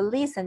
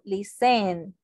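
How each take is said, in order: First: The stress is on the first syllable. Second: The stress is on the second syllable. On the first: The speaker calls it right. "acá es donde yo digo listen" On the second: The speaker calls it wrong. "yo no digo listen"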